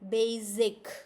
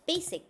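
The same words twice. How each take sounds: First: The middle consonant is a buzzing z sound. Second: The middle consonant is a hissing s sound. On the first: The speaker calls it wrong. "your sound comes like basic, which is not correct. Z sound is not correct" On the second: The speaker calls it right. "S sound"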